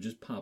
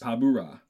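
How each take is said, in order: First: The name is said with two syllables, Pa-blo. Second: The name is said with three syllables, Pa-bu-ra. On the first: This follows how the name is spelled. "But it is spelled Pablo's" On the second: This follows how the name is sung in their song. "You are literally pronouncing it the way they pronounce it"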